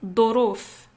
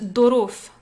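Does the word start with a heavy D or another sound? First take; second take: heavy D; heavy D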